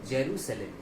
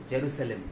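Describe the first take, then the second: No difference in how they are said.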